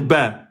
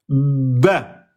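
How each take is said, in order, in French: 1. La consonne b est courte et légère. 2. La consonne b est tenue et doublée. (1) "vous pouvez pas dire ba" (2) "Vous devez insister"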